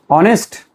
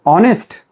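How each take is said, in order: No difference in how they are said.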